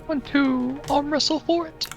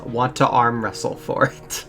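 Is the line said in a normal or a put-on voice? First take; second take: put-on; normal. First: It is said in a put-on character voice. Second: It is said in the speaker's normal voice.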